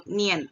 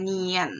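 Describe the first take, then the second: First: Nian as one glided syllable, "nyen"; joined-up Nian. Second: Nian drawn out in two parts, "nee-yen"; wrong, split Nian. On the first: Teacher showing it must be direct, joined-up demo. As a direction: run Nian straight through without a break. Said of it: "itu harus langsung". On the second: Teacher showing what to avoid, split-syllable demo. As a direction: stretch the i of Nian before the ending. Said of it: "bukan Nian". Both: Shown as a demonstration.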